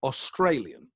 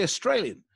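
First: "Australian" with a full first vowel, "aw-STRAY-lian"; "Australian" said the English way, aw-STRAY-lian; English pronunciation. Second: "Australian" with a weak first vowel, "uh-STRAY-lian"; "Australian" said as uh-STRAY-lian, not aw-STRAY-lian; own Australian-style pronunciation. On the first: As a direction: open "Australian" on a clear "aw". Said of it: "not how English people say it". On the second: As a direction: start "Australian" on a quick schwa. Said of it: "I say Australian". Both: Shown as a demonstration.

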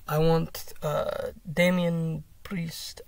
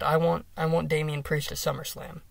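First: Put-on slow, accidental Russian accent. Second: Said in the usual way. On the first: Fan quoting a wrestler's challenge, slipping into Russian accent. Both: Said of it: "I don't know why I went Russian".

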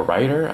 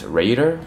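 First: "Rider" with a long eye vowel; "Rider" rhyming with wider; pronounced RYE-der. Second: "Raider" with a long ay; "Raider" rhyming with trader; pronounced RAY-der. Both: Shown as a demonstration. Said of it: "not sure how to pronounce it".

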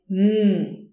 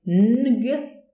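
First: "mm" as one long hummed ng from the back of the mouth; one back-of-mouth sound. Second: "ng" as a drawn n, then a released g; separated n-g. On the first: Teacher showing what we say, one sound from the back. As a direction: hold mm as a single nasal ng, no released g. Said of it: "we produce it as one sound". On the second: Teacher showing what we don't say, ng as two sounds. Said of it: "So we don't say ng". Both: Shown as a demonstration.

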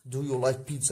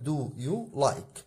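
First: Said in the usual way. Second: Very slow, each word spelled out for students; slow classroom dictation; slow demo. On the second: Shown as a demonstration. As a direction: draw the words out like dictating to a class. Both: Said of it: "يبقى هنا أقول لك".

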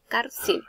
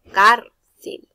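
First: Said in the usual way. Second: "cárcel" with CÁR punched very loud; stress on first syllable. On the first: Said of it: "Cárcel termina en L". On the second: Shown as a demonstration. Teacher giving an example of tilde, "cárcel" with a loud CÁR. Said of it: "La mayor fuerza de voz recae".

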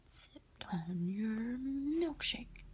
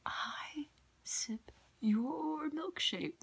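First: Whispered, slow, drawn-out movie villain misquote; misquoted movie line. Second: High, slow whispered villain line; movie villain quote. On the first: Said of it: "I didn't quote it all the way right". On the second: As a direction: whisper "milkshake" drawn out, gloating. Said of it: "the movie There Will Be Blood". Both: Retold or imitated.

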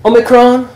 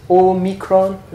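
First: "Omicron" opening with ah as in not; short-o Omicron. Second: "Omicron" opening with a clear long oh; o-micron. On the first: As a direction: say "Omicron" with a short, open first vowel. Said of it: "Omicron, as in not". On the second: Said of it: "Small O". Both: Shown as a demonstration.

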